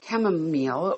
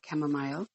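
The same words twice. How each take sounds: First: It is said in an ordinary American accent. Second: It is said in an Irish accent.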